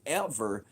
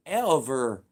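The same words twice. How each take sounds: First: Said in the usual way. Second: Ever punched much louder, alone after a pause; emphatic repeat. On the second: Shown as a demonstration. Insisting the government never sent checks, Ever punched loud. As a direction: hammer the word Ever home.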